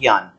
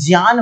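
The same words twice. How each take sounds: First: It begins with a gy sound. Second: It begins with a j and nasal sound. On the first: The speaker calls it wrong. "न कि ज्ञान" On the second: The speaker calls it right. "इसका शुद्ध उच्चारण ज्ञान होना चाहिए"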